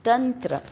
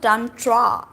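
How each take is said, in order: First: "tantra" said as tun-truh, short neutral vowels; correct pronunciation. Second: "tantra" said as tahn-TRAA with long open vowels; wrong pronunciation. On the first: Teacher showing how it should be said, correct pronunciation. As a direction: say "tantra" the Indian way, TUN-tru, ending short. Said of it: "it's tantra". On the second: Teacher correcting a common mistake, wrong pronunciation. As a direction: draw out both a's in "tantra", heavy final traa. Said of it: "Whereas it's not tantra". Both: Shown as a demonstration.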